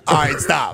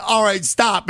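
First: Lower, shouted catchphrase. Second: Said in the usual way. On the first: Retold or imitated. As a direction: shout the hook like the record. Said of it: "and not use". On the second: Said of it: "Call that bitch, all right, stop".

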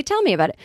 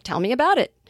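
First: "me" pitched high, falling away through "about it"; stress on ME. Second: "about it" lifted higher, "tell me" left plain; stress on ABOUT IT. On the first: Showing how you'd really say it, stress on "me". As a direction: hit "me", let "about it" drop. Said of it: "You'd say". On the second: Joking with listeners about odd phrasing, stress on "about it". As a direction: lean on "about it" instead of "me". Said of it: "with the emphasis on "about it". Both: Shown as a demonstration.

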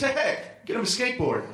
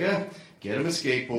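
First: Lightly voiced joker, raised pitch; laughing old man. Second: Low, grudging grunt into the line; weary obligation. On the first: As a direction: imitate an old man tickled by his joke. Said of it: "he just points and goes". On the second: Retold or imitated. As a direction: recite it like a tiresome duty. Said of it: "like he was obligated to do".

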